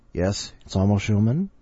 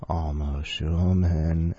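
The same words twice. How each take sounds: First: Said in the usual way. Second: Slow savoring. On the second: Pretend. Savoring name slowly.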